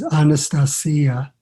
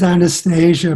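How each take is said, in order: First: The name is said the Russian way. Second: The name is said the English way. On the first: "the Russian pronunciation is Anastasia, like to rhyme with Maria" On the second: "it is Anastasia"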